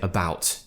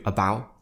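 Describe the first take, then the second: First: The final T is clearly and fully pronounced. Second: The final T is dropped with no throat tension. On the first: "do pronounce those T's" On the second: "if you just do about, that doesn't sound right"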